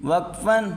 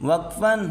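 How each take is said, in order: The two takes are said the same way.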